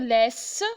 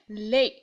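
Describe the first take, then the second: First: The final S is pronounced aloud. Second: The final S is silent. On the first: The speaker calls it wrong. "je ne vais pas dire laisse" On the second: The speaker calls it right. "S est une lettre muette aussi"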